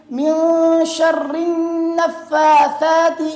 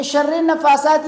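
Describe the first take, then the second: First: "شر نفاثات" as "sharrin-naffathat", slowly chanted; ra joined to nun. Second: "شر" as "sharre" before "نفاثات", no held n; wrong unjoined ra. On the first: Teacher corrects the joining, slow tajweed. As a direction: hold a long n linking "شر" to "نفاثات". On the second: Teacher rejects the mistake, ra not joined to nun. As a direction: say "شر نفاثات" apart, with an e. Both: Shown as a demonstration. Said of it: "نہیں ہے بلکہ".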